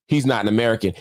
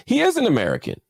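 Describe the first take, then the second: First: Said in the usual way. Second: "is" pitched higher and hit hard; stress on IS. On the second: Shown as a demonstration. To critics who doubt Embiid's citizenship, stress on "is". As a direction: lean hard on "is" in "He is an American". Correcting the claim with emphasis.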